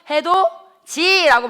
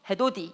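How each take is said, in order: First: The third syllable starts with a j sound. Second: The third syllable starts with a d sound. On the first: The speaker calls it right. "우리는 어떻게 발음해? 해도지라고 발음하잖아" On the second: The speaker calls it wrong. "해도디 이렇게 발음하는 사람 있어요? 아니야. 이렇게 발음하면 혀가 짧네"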